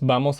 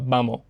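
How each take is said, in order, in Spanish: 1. La s final se pronuncia claramente. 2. La s final se omite por completo.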